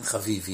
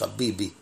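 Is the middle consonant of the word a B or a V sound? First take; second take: V; B. First: The middle consonant is a V sound. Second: The middle consonant is a B sound. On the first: The speaker calls it wrong. "בערבית אין להם בית, אז זה הופך לבית, חביבי, אין חביבי" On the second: The speaker calls it right. "יש חביבי"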